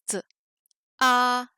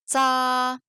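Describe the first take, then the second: First: "t, a" split, short ts then held a; t as bare ts, then a level a; separated sounds. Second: "tsa" blended into one held syllable; drawn-out level tsa in one piece; whole syllable. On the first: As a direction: say the consonant ts alone, pause, then a. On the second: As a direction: join ts and a on an even pitch. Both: Shown as a demonstration. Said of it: "on va ajouter des voyelles".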